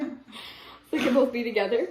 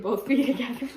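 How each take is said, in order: First: Said in the usual way. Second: Laugh breaking through. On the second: Real, not acted.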